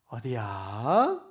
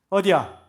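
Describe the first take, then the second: First: It is asked in a soft, gentle tone. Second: It is asked in a sharp, harsh tone. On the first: The listener feels respected. The speaker calls it right. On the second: The speaker is scolding the listener. The speaker calls it wrong.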